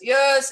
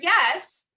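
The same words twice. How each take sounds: First: It is said in a much deeper voice. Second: It is said in the speaker's normal voice. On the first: "it'd be a lot deeper" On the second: "if I say the word yes"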